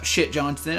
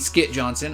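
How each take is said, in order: First: The name starts with an 'sh' sound. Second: The name starts with an 'sk' sound. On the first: The speaker calls it wrong. "I always called him Shit Johnson, but apparently that's not how you pronounce it" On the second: The speaker calls it right. "I mean Skit Johnson"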